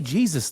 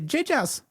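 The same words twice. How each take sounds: First: It is said with ordinary English pronunciation. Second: It is said with a Korean-style pronunciation. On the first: This is the usual English way. "They don't say Jesus though" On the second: This is how Koreans say it. "They say Jesus"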